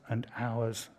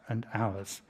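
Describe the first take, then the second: No difference in how they are said.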